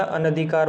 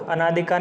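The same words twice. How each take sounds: First: अनधिकार with short अ after न, a-na-dhikaar; अनधिकार said crisply, short न, no long आ; correct form. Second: अनाधिकार with long आ after न, a-NAA-dhikaar; wrong spelling said aloud. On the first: Teacher to students giving the right form, short अनधिकार. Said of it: "होता है". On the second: Teacher to students showing the wrong form, अनाधिकार with long आ. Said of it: "नहीं होता". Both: Shown as a demonstration.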